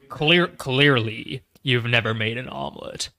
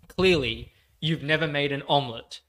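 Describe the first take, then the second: First: It is said in a put-on character voice. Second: It is said in the speaker's ordinary voice.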